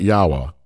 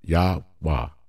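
First: The name is said in two syllables. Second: Three syllables, the middle one nearly silent. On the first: The speaker calls it wrong. "It's not Yahwah. That's two syllables" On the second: The speaker calls it right. "It's Yah, rest, Wah. Yahwah. So say it that way"

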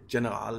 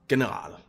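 First: It is pronounced the English way. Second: It is pronounced the German way. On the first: The speaker calls it wrong. "you wouldn't say General if you were German" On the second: The speaker calls it right. "You would say General"

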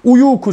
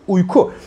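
First: An extra u vowel is kept before ku. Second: No vowel is heard between uy and ku. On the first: The speaker calls it wrong. "şeklinde değil" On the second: The speaker calls it right. "Buradaki u düşmüş"

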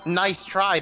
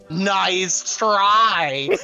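First: It is said plainly, in a sincere tone. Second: It is said mockingly, in a condescending tone. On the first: A polite word of encouragement. "You say" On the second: A mocking put-down. "but what you really mean is"

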